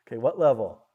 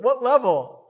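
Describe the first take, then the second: First: Said in the usual way. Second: Laughing. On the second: Real, not acted. Laughing at own old program.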